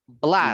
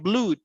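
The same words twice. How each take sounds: First: The vowel sounds like a short 'ah'. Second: The vowel sounds like a long 'ooh'. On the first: The speaker calls it right. "We pronounce it like ah" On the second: The speaker calls it wrong.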